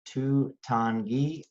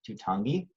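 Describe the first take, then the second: First: The syllables are said slowly with small breaks. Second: The syllables are run together in one go. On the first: "Put them together" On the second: "or all at once"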